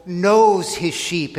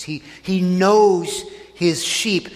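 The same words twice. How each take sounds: First: "knows" drawn out slowly and leaned on; slow, weighty "knows" with a falling end; stress on knows. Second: "knows" stretched long and pressed; slow, emphatic "knows" in a plain sermon voice; stress on knows. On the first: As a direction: lean into "knows" as the key verb. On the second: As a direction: dwell on "knows", an action word. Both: Shown as a demonstration. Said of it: "notice that's a, it's a verb".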